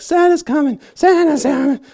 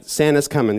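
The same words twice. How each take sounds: First: Very high, loud, giddy squeal on Santa's coming; squealing overjoyed elf; excited Buddy the Elf. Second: Said in the usual way. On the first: Retold or imitated. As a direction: bounce with childlike glee as the elf. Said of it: "He gets all excited". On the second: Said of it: "and they're like".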